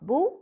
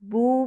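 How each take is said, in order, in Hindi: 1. स्वर छोटा है। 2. स्वर को खींचकर लंबा बोला गया है। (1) "बा वम्मा बू" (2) "हर्फ मद के साथ बू पढ़ा जाएगा"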